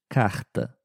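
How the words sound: The R is a strong throaty sound. This is how it is said in Rio de Janeiro. "No Rio de Janeiro, ... com um R forte"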